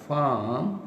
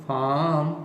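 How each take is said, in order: The two takes are said the same way.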